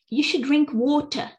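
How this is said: It is said in a British accent.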